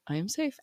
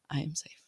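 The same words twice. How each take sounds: First: Voiced but soft, a little higher; soft mantra. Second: Whispered mantra. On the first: Mom repeating her calming mantra, soft and voiced. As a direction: say it softly aloud after the whisper. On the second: Mom soothing her nervous system, whispered mantra. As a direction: whisper it to yourself, no voice. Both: Shown as a demonstration. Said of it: "reprogram myself that I am safe".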